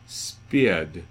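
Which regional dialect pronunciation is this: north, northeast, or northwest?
north. It is said in a northern English dialect. "In the north, we get spied"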